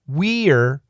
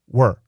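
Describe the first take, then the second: First: It is said fully, like 'wee-er'. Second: It is shortened to sound like 'were'. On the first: "perfect pronunciation is we're" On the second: "we almost always reduce it to were"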